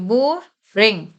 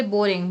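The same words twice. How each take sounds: First: boring slow, with a held r, a bit louder; drawn-out repeat. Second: Said in the usual way. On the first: Shown as a demonstration. Teacher repeating the example word for students, slow and clear. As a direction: stretch boring for the class to hear. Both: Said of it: "जैसे boring".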